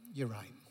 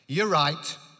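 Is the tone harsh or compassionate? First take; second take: compassionate; harsh. First: It is said in a warm, gentle tone. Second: It is said in a harsh, judging tone. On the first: The woman is seen and cared for. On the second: The woman is being condemned.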